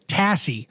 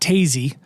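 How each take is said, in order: First: The middle consonant is a hissing s sound. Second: The middle consonant is a buzzing z sound. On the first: The speaker calls it right. "Tassie, not Tazy" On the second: The speaker calls it wrong. "not Tazy"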